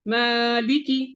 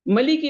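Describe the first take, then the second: First: The first vowel is held long. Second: The first vowel is kept short. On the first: The speaker calls it right. "अब इसको लंबा किया" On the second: The speaker calls it wrong. "मलिकी नहीं कर सकते।"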